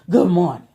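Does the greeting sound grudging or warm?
grudging. It is said in a flat, reluctant tone. The speaker does not really mean the greeting. The speaker calls it wrong. "dang, did you really want to tell me good morning?"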